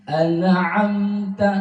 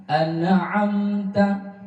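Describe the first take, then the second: The two takes are said the same way.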